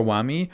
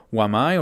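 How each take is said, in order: First: "Wami", last syllable rhyming with "see"; alternative pronunciation. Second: "Wamai", last syllable rhyming with "eye"; alternative pronunciation. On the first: Gamer offering another way to say a new operator's name, "Wami" ending in "ee". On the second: Gamer offering one way to say a new operator's name, "Wamai" ending in "eye". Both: Shown as a demonstration. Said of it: "however you're gonna pronounce them".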